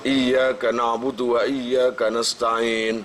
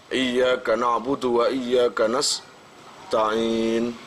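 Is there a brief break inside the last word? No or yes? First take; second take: no; yes. First: The last word is read smoothly without a break. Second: The last word has a brief break inside it. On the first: The speaker calls it right. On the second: The speaker calls it wrong.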